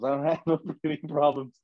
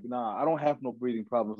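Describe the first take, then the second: First: Laughing through it. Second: Said in the usual way. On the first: Retold or imitated.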